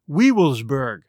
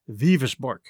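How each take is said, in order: First: The word begins with a w sound. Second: The word begins with a v sound. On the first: This is how the spelling appears to read. The speaker calls it wrong. "which looks like Weevilsburg" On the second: This is how the name is actually pronounced. The speaker calls it right. "it's pronounced Vivisborg"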